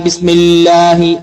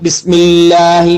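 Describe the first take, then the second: The two takes are said the same way.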